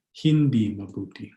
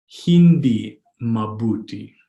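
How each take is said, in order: First: Said in the usual way. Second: Hindi mabuti drawn out slowly; slow, word by word. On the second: Shown as a demonstration. Teacher modelling "not good" in Tagalog, slow and separated. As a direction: sound out "Hindi mabuti" for learners.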